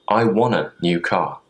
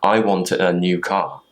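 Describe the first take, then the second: First: Want and a blend together into wanna. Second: Want and a are said as separate words. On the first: "that's just another way of shortening it" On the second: "instead of saying"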